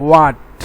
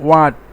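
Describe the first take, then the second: The two takes are said the same way.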